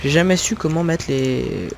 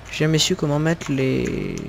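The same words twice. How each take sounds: The two takes are said the same way.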